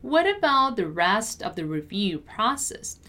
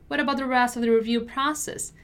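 First: Measured, carefully articulated teaching read; word-by-word pronunciation model. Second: Brisk, connected natural-speed read; fast model sentence for learners; quicker repeat. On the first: Teacher models sentence slowly first. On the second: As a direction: run the words together at conversational speed. Teacher repeats at quicker pace. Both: Shown as a demonstration.

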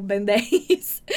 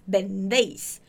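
First: Bendéis said the wrong way, mocked with a laugh; wrong pronunciation. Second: Bendéis with a firm B sound at the start; correct pronunciation. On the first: Teacher mocks the wrong way to say it, laughing. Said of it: "Você não vai falar bendéis". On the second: Teacher models the right sound for students, carefully. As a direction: start bendéis on a real B, not a V. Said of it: "Com esse som de B mesmo". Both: Shown as a demonstration.

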